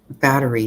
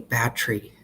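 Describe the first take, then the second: First: The word is said in the usual way. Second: The word is said in an unusual regional way. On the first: This is how most people say it. The speaker calls it right. "instead of saying battery" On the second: Only one family says it this way. The speaker calls it wrong. "he would say battery"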